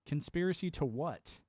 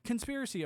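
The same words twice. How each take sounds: First: Conspiracy said slowly, flatly challenging; slow challenging retort. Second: A scoffer yelps conspiracy with the voice jumping up; mocking high conspiracy cry. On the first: Retold or imitated. Answering the doubter's scoff, slow and pointed. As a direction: drag out Conspiracy to what, daring an answer. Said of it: "I was like". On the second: Mimicking a doubter dismissing his claims, higher scoffing voice. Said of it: "someone else is like".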